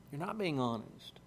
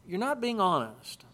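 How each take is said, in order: First: Lower, much softer echo; quiet repetition. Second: Said in the usual way. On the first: Real, not acted. Preacher repeating the point to his listeners, low and soft. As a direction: drop the voice and let it sink in.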